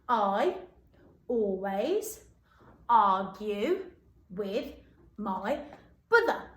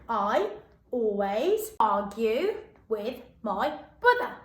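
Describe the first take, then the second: First: It is said at a normal pace. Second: It is said at a faster pace.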